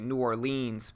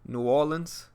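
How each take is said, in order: First: It is said the outsider way. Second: It is said one local way. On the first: The speaker calls it wrong. "They try to be cool and they say New Orleans" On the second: The speaker calls it right. "There's two ways people from Louisiana say it"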